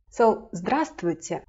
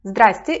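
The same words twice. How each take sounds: First: Full form "здравствуйте", every consonant spoken; full "здравствуйте", all of its letters said; full greeting. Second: Casual "Здрасте", clusters dropped; short casual form. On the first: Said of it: "Why is it so hard to pronounce?". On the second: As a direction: clip "Здрасте" to two quick syllables. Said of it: "Здрасте is much easier". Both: Shown as a demonstration.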